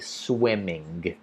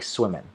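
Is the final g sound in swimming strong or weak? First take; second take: strong; weak. First: The final g sound is fully pronounced. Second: The final g sound is weak or dropped. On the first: The speaker calls it wrong. "it sounds usually pretty unnatural to say swimming" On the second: The speaker calls it right. "It's more like swimming"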